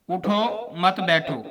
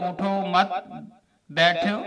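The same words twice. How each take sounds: First: "उठो", full stop, then "मत बैठो" as one phrase; pause after उठो. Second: "उठो मत" run together, long gap, then "बैठो"; pause moved after मत. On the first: Teacher showing where the stop is required, pausing after उठो. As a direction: stop firmly on उठो before saying मत बैठो. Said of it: "उठने पर ठहरना लाजमन है". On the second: Teacher showing how skipping the stop flips the meaning, pausing after मत. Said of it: "अगर ना ठहरा जाए तो". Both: Shown as a demonstration.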